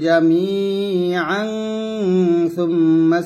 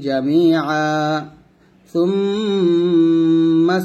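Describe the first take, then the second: First: Jamian runs straight into the next word. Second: There is a stop after jamia. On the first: "মিলাইছি" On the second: "আবার থামলে হবে"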